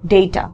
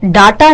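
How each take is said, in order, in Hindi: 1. पहला स्वर 'ay' जैसा बोला जाता है। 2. पहला स्वर 'ah' जैसा बोला जाता है। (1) "इट्स डेटा" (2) "डाटा नहीं होता"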